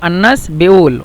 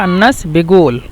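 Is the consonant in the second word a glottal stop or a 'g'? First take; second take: glottal stop; g. First: The second word has a glottal stop in the middle. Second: The second word has a 'g' sound in the middle. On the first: "কফকে যেহেতু হামজা" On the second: "অথবা গইন উচ্চারণ করে"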